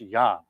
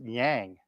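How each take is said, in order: First: The vowel is said the Chinese way. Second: The vowel is said the common English way. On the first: The speaker calls it right. "It's pronounced yang" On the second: The speaker calls it wrong. "everybody pronounces it yang"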